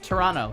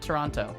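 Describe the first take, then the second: First: The second T is softened, nearly dropped. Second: The second T is fully and clearly pronounced. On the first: The speaker calls it right. "They want you to soften up on that second T" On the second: The speaker calls it wrong. "not Toronto"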